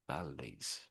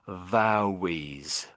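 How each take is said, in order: First: The middle L sounds like a clear L. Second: The middle L sounds like a W. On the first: The speaker calls it right. "this word is pronounced as valley, valley, valleys, valleys" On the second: The speaker calls it wrong. "I think you said this word something like vowies"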